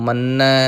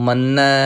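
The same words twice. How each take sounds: Both takes have the same delivery.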